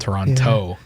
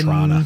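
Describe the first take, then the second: First: The second T is clearly pronounced. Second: The second T is dropped. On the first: The speaker is not from the city. "they pronounce the second T" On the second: The speaker is a local. "that's just the way we pronounce it"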